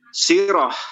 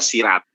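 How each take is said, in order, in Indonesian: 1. Kata ini berakhir dengan bunyi h yang lembut. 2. Kata ini berakhir dengan bunyi t.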